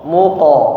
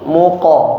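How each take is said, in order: No difference in how they are said.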